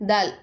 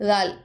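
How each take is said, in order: Both takes have the same delivery.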